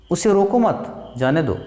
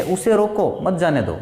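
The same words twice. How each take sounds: First: Slight break after मत before जाने दो; short pause after मत. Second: Slight break after रोको, मत joined to जाने दो; उसे रोको, then मत जाने दो as one group; short pause after रोको. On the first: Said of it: "थोड़ा सा ठहराव को हम अल्प विराम कहते हैं". (मत के बाद थोड़ा ठहराव) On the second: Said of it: "अल्प विराम में थोड़ा सा ठह-, ठहरते हैं". (रोको के बाद थोड़ा ठहराव) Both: Shown as a demonstration.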